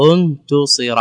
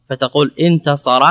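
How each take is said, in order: First: انتصر said as untusira, u on the first and third letters; untusira, rounding the t; passive form. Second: Said in the usual way. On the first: Shown as a demonstration. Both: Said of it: "ضممت التاء وهي الثالث".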